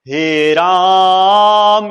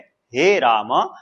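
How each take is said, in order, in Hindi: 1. यह वाक्यांश ऊंची आवाज़ में बोला गया है। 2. यह वाक्यांश मध्यम आवाज़ में बोला गया है। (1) "बहुत ही ऊंची आवाज में बोल रहा है" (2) "मध्यम स्वर में"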